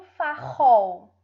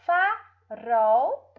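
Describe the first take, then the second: First: "farol" with a throaty H-like R, like "farrol"; loud "fa-RROL", R from the throat; strong R. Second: "Farol" slowly with a tongue-tip trill; loud, drawn-out "fa-ROL", tongue trembling on the R; weak R. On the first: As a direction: mispronounce "farol" with a guttural R, slowly. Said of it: "ou vai ter um som forte". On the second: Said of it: "o som fraco". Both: Shown as a demonstration.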